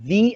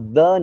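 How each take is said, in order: First: The vowel is long, like 'thee'. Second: The vowel is short, like 'thuh'. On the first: The next word starts with a vowel sound. "Vowel हो आगे तो दी कहना" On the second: The next word starts with a consonant sound. "Consonant हो तो द कहना"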